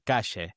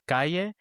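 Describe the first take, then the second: First: It is said in an Argentinian accent. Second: It is said in a textbook accent. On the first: "the Argentinian version" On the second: "the version we learn is calle"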